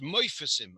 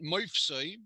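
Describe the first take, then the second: First: A short vowel is heard after the f. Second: The f runs straight into the next consonant. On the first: The speaker calls it right. "We say moifasim" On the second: The speaker calls it wrong. "we don't pronounce it moifsoi"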